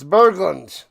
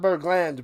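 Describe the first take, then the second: First: The last syllable sounds like 'lund'. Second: The last syllable sounds like 'land'. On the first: The speaker calls it right. "it's Berglund" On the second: The speaker calls it wrong. "Not Bergland"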